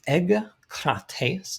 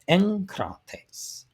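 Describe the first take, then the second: First: The sound before the k is a hard g. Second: The sound before the k is an n. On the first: The speaker calls it wrong. "not egkrates, not that" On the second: The speaker calls it right. "the first gamma is pronounced like an N"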